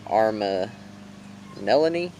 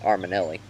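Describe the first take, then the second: First: Said carefully, with the final 'ni' syllable included. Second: Said fast, with the final 'ni' syllable dropped. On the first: The speaker calls it right. "I'm going to try and say this right" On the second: The speaker calls it wrong. "whenever I just say it fast, it comes out"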